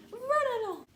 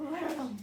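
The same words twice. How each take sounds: First: Much higher and louder, cooing at a dog; squeaky pet talk. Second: Said in the usual way. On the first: Real, not acted. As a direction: shoo the dog off in a sing-song squeak. Sending the dog off.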